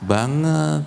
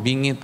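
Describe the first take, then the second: First: The word is said with a plain 'a' vowel. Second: The word is said with a raised 'i' vowel.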